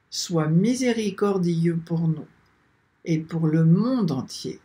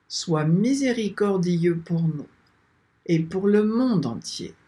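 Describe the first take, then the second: No difference in how they are said.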